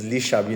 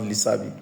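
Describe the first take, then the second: First: "Shabi" said with a sh sound; "Shabi" with a clear sh; correct pronunciation. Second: "Sabi" said with a plain s; "Sabi" starting on a simple s sound; wrong pronunciation. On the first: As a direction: say "Shabi" starting with sh. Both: Shown as a demonstration. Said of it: "not Lee Sabi".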